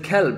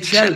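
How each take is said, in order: First: The word begins with a hard k sound. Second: The word begins with a ch sound. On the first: "instead of kelb" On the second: "They say chelb"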